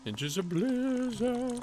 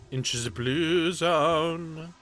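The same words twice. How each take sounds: First: High dramatic announcer voice. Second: Said in the usual way. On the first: Shown as a demonstration. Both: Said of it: "repeated in a voice".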